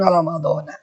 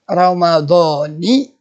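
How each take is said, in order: First: The word ends with an 'a' vowel. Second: The word ends with an 'i' vowel. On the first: The speaker calls it wrong. "Bukan Ramadhana" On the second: The speaker calls it right. "Itu yang benar melafalkannya begitu"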